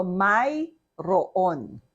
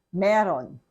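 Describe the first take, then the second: First: "mayroon" slowly as spelt, may-ro-on; spelled-out pronunciation. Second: "meron" run together as meh-ron; proper pronunciation. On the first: Teacher showing learners the word as spelled, slow and syllabicated. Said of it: "say it first as we spell it". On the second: Teacher giving learners the everyday word, properly pronounced. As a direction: say "meron" in two syllables, conversational form. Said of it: "properly pronounce it". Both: Shown as a demonstration.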